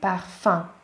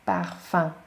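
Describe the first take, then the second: First: The last vowel is a nasal vowel. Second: The last vowel is a nasal vowel.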